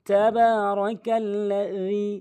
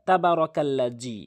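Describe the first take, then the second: First: The ba is lengthened and dhal is lisped. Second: The ba is short and dhal sounds like z. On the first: The speaker calls it right. "এখানে বা টান হবে" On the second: The speaker calls it wrong. "অধিকাংশ লোক যে ভুলটি করে"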